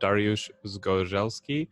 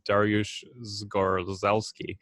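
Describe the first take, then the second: First: The name is said with a Polish pronunciation. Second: The name is said with an American pronunciation. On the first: "that's the Polish" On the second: "if it's American"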